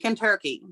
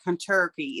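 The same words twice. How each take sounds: First: Kentucky with the vowels forward, the r curled in; forward-mouthed Kentucky, kʰæ̃n-tʰə˞-ki; Kentucky front of mouth. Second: Kentucky said with the sound pushed forward in the mouth; forward-placed Kentucky, the r curled in; Kentucky front of mouth. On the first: Showing the Kentucky way of saying Kentucky. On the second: Demonstrating how Kentuckians say Kentucky, forward in the mouth. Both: Shown as a demonstration. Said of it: "more right here in the front of the mouth".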